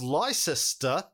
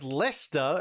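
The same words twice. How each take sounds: First: The name is said with three full syllables. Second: The name is said with two short syllables. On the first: The speaker calls it wrong. "it's not pronounced Leicester" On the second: The speaker calls it right. "but Leicester"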